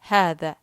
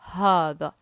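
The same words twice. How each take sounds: First: The word is said delicately, softer and shorter. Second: The word is said with a thick, heavy sound. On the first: This is how it sounds in southern Saudi Arabia and Yemen. "they make it delicate, or like very softer and shorter" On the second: This is how it sounds in eastern Saudi Arabia. "They make it thick"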